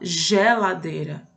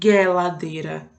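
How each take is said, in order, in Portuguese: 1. A primeira consoante é o som suave de zh. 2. A primeira consoante é o G de gato. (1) "o G tá com um sonzinho meio que de J" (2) "a gente não vai falar geladeira"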